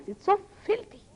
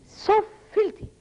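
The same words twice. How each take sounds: First: Disgusted. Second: Disgusted repeat. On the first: Disgust at talk of sex. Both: Real, not acted.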